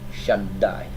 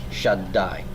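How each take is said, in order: Both takes have the same delivery.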